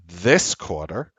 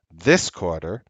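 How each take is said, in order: Both takes have the same delivery.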